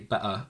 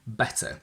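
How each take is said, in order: First: The middle t sound is dropped. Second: The middle t sound is clearly pronounced. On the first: "I would never say" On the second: "always pronounce t uh, between vowels"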